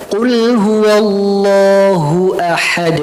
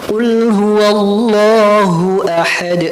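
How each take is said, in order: Both takes have the same delivery.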